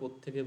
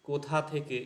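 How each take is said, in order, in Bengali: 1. শব্দ দুটি জুড়ে গিয়ে একটি ছোট শব্দ হয়ে যায়। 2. শব্দ দুটি পুরোপুরি ও আলাদাভাবে বলা হয়।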